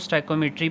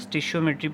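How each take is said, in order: First: The word begins with a 'stoyk' sound. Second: The word begins with a 'stish' sound. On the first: This is how it is said in engineering. "Engineering की term है ये, तो इसमें इसको स्टाइकोमेट्री पढ़ा जाता है" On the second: Some people say it this way. "कुछ लोग इसको स्टिशियोमेट्री पढ़ते हैं"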